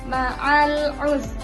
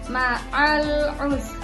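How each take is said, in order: The two takes are said the same way.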